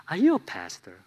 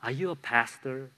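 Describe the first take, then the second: First: Laughing mock question from his wife; teasing wife. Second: Softer, quiet, turned inward; sincere, hushed self-question. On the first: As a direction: tease him, laughing through it. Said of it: "but she says". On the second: Real, not acted. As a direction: ask it of yourself, softly. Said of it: "ring so true in my heart".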